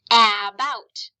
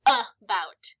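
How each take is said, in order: First: "about" with a strong A as in cat, loud; mispronounced first vowel. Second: "about" slowly split as uh-bout; schwa pronunciation. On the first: Teacher showing the mistake, "about" with short A. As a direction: open "about" with a full short A, not schwa. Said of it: "if you didn't know the schwa sound, you might say". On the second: Teacher correcting the class, "about" with schwa. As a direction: start "about" with a short uh, then pause. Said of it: "No, it says about". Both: Shown as a demonstration.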